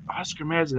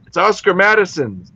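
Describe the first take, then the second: First: Much softer, musing echo of a name; puzzled repeat. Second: Higher-pitched, plain announcing of a name; matter-of-fact answer. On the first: Newcomer trying to remember the name, puzzled. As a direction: say it to yourself, trying to place it. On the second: Bartender telling a newcomer the pub's name, matter-of-fact. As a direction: state the name as the obvious answer. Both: Retold or imitated.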